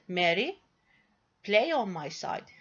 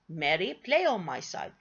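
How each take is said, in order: First: There is a short pause after Mary. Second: There is no pause after Mary.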